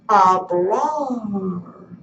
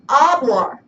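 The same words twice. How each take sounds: First: The stress is on the last syllable. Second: The stress is on the first syllable. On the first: The speaker calls it right. "we say hablar" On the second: The speaker calls it wrong. "instead of saying hablar"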